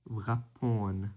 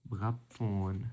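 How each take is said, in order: Both takes have the same delivery.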